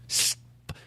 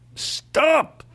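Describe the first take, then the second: First: It is said calmly, without force. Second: It is said forcefully and aggressively.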